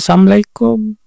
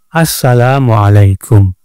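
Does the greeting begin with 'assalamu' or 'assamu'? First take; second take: assamu; assalamu. First: The 'la' is dropped, so it sounds like 'sam'. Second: The greeting is said with the full 'salam' syllables. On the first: It wishes death upon the listener. The speaker calls it wrong. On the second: It wishes peace upon the listener. The speaker calls it right. "Jadi yang benar apa?"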